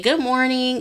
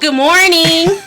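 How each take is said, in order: First: It is said at a normal, soft volume. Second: It is said loudly.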